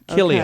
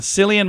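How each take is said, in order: First: The name begins with a hard K sound. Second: The name begins with a soft S sound. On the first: The speaker calls it right. "It's pronounced Killian, not Cillian" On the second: The speaker calls it wrong. "I'm saying that wrong"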